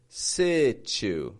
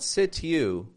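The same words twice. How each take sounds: First: The t and u blend into ch. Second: The t and u are said separately. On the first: The speaker calls it right. "but situ" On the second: The speaker calls it wrong. "Not situ"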